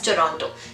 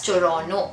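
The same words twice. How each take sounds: First: The second T is clearly pronounced. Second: The second T is silent. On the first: This is how outsiders say it. "rest of the world calls it as Toronto" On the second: This is how locals say it. "the localites here like to call it as Toronto, making the T silent"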